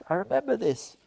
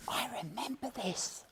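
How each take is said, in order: First: Said in the usual way. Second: A breathy whisper of remembering. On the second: Shown as a demonstration. Teacher recalling his first visit, whispered. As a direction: whisper it to yourself as a memory comes back.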